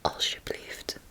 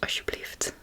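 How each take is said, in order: First: It is said slowly with a clear L sound. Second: It is said faster with the L nearly silent. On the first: "So it's alsjeblieft" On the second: "if you say it faster, it becomes alsjeblieft. It, the L becomes a little bit silent"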